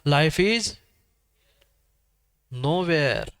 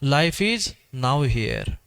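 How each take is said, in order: First: The ending is split as 'no where'. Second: The ending is split as 'now here'. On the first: Life exists nowhere. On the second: Life is present in this moment.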